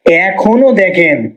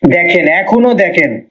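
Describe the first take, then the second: First: এখনো দেখেন slowed right down, এখনো weighted and falling; slow, deliberate insistence on এখনো; slow emphatic repeat. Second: Said in the usual way. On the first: Shown as a demonstration. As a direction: drag out এখনো দেখেন to drive it home.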